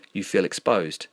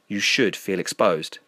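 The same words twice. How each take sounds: First: Said in the usual way. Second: Slow, with "should" leaned on; insistent stress. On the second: A narrator's reading. Friend overruling the denial, insistent stress on "should". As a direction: press firmly on "should", drawing the line out.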